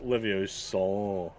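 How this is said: It is said with a low twangy voice.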